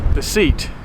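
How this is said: The name is said with an American pronunciation. "In the States we pronounce it like it's spelled"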